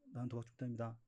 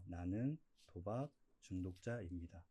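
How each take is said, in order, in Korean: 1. 빠르고 가볍게, 지나가듯 말합니다. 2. 천천히, 음절마다 또박또박 끊어서 말합니다. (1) "이렇게 그냥 뭐 흘러가듯이 스치듯이" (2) "천천히 또박또박 자기 안에 스며들게끔"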